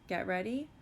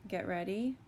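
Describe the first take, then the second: Both takes have the same delivery.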